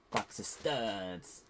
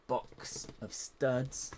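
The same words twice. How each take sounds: First: Odd slow voice. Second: Box of studs stretched very slow in a strange put-on voice; odd drawn-out voice. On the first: Pretend. Builder repeats box of studs slowly in a silly put-on voice. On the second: Builder opening her tub, says box of studs in a slow silly voice. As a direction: draw out box of studs slowly, oddly. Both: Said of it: "I don't know why I said that like that".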